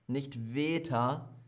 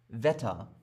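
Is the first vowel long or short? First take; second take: long; short. First: The first vowel is held long. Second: The first vowel is cut short. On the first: The speaker calls it wrong. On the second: The speaker calls it right. "Doppelkonsonant. Kurz"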